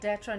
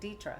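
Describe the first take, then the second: First: The first vowel sounds like 'eh'. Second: The first vowel sounds like 'ee'. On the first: The speaker calls it wrong. "I get called Detra ninety-eight percent of the time" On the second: The speaker calls it right. "you said it correctly"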